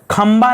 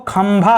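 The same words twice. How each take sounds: First: खंबा with a plain ba at the end; wrong form खंबा, plain ब; unaspirated ब. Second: खंभा slowly, with a breathy bha; slow corrected खंभा, भ clearly aspirated. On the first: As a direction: say kham-baa, no breath on the ब of खंबा. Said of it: "खंबा नहीं होता है". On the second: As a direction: stretch kham-bhaa, puff of air on भ in खंभा. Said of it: "खंभा होता है". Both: Shown as a demonstration.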